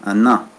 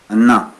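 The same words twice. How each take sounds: The two takes are said the same way.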